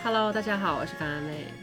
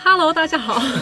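First: It is said softly. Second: It is said loudly.

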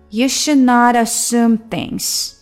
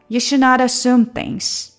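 First: The sentence is said at a slower pace. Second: The sentence is said at a faster pace.

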